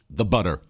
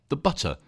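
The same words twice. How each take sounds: First: It is said in an American accent. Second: It is said in a British accent.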